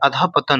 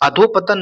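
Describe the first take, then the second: First: The middle is said with an ah sound. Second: The middle is said with an o sound. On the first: The speaker calls it right. "अधःपतन होता है" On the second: The speaker calls it wrong. "अधोपतन नहीं होता है"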